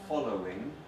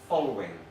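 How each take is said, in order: First: All three syllables are said in full. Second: A syllable is dropped, giving two syllables. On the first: "like following" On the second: "shortened some words"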